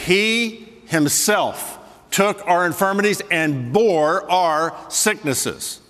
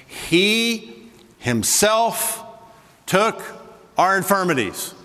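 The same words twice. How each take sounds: First: Slow reading, each word weighed; slow quote. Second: He himself drawn out slow and high; slow, weighty quote. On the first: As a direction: drag out bore our sicknesses. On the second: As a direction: lean hard on himself, took, our. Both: Shown as a demonstration. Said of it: "There it is".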